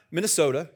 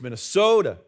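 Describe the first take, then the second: First: Said in the usual way. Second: Minnesota accent, stressed and stretched SO in Minnesota. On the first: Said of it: "it's not Minnesota". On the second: Shown as a demonstration. Preacher demonstrating how locals say it, exaggerated Minnesota accent. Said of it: "when you're from Minnesota".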